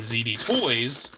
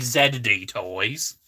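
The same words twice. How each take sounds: First: The letter Z is said the American way, zee. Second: The letter Z is said the British way, zed.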